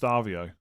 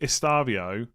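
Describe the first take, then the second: First: The name begins with an S sound. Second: The name begins with an E sound. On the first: The speaker calls it right. "it's just Stavio" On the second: The speaker calls it wrong. "most of us say Estavio"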